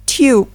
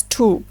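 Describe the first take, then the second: First: "tube" as tyoob, with a Y before the U; British Y-glide in "tube"; British pronunciation. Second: "tube" as toob, long OO with no Y; American long U in "tube"; American pronunciation. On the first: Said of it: "while in British English". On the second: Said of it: "in American English". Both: Shown as a demonstration.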